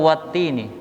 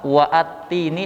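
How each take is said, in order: First: Wa runs straight into the doubled T. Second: A glottal catch and extra vowel follow wa. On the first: The speaker calls it right. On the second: The speaker calls it wrong.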